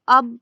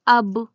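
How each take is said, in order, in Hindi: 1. b पर होंठ बंद रहते हैं। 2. b पर होंठ झटके से अलग होते हैं। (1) "अब नहीं पढ़ा जाएगा" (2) "अब इस तरह पढ़ा जाएगा"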